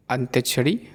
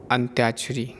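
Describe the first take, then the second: First: अंत्यक्षरी without the long आ after त्य; the mistaken अंत्यक्षरी; wrong form. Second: अंत्याक्षरी with a long आ after त्य; the proper अंत्याक्षरी; correct form. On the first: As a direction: say अंत्यक्षरी, त्य straight into क्ष. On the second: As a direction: say अंत्याक्षरी, त्या held long. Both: Shown as a demonstration. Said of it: "अशुद्ध और शुद्ध रूप".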